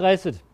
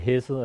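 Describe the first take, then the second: First: The word begins with a harsh throat sound. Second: The word begins with a soft, plain h sound. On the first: The speaker calls it right. "Men man skal have det her lyd" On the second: The speaker calls it wrong. "Ellers så bliver det hæsset, og det er ikke helt det samme"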